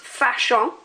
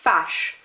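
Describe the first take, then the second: First: The word ends with a nasal vowel sound. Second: The word ends with the 'sh' sound. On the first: The speaker calls it wrong. "this is not pronounced fâchant" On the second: The speaker calls it right. "it's just pronounced fâche"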